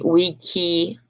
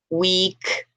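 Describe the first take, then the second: First: An extra vowel is added after the final K. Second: The word ends sharply on the K sound. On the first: The speaker calls it wrong. "so you're going to say" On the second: The speaker calls it right. "it ends a lot before the vowel"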